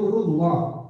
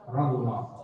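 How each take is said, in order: First: The syllable before -llah has a 'u' vowel. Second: The syllable before -llah has an 'a' vowel. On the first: The speaker calls it right. "Tulisannya itu rullah" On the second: The speaker calls it wrong. "bukan rallah"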